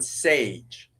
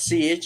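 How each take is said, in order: First: The surname is one syllable with an ay vowel. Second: The surname is one syllable with an ee vowel. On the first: The speaker calls it right. "It's Stepan Sage" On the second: The speaker calls it wrong. "It is not Siege"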